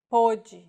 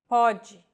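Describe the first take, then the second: First: Pôde with a closed O; pôde, past tense; pôde said with a closed vowel. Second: Pode with an open O; Pode, present tense. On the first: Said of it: "closed pronunciation". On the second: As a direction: Pode said openly. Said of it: "differentiate homographs". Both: Shown as a demonstration.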